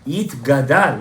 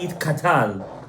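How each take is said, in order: First: The second part begins with a g sound. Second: The second part begins with a k sound. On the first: The speaker calls it right. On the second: The speaker calls it wrong. "not Yit Katal"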